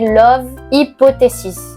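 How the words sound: It is pronounced with a French accent. "si je le prononce à la française"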